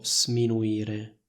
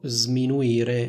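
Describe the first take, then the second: First: The s is voiceless, like a hiss. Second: The s is voiced, like a z. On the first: The speaker calls it wrong. "non dico sminuire" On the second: The speaker calls it right. "io dico sminuire"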